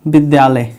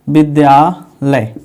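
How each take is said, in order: First: Said in the usual way. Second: विद्यालय said slowly, stretched into its parts; word drawn out. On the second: Shown as a demonstration. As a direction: draw out विद्यालय at half speed, part by part. Repeats word to show its parts. (विद्यालय को धीरे-धीरे खींचकर)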